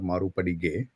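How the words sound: The name is said with an Indian pronunciation. "if I go with Indian pronunciation"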